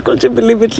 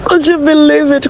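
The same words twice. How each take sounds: First: Said in the usual way. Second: High, thrilled disbelief; could you believe it, squealed with delight; excited. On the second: Real, not acted. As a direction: burst out with real joy. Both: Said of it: "I'm so excited".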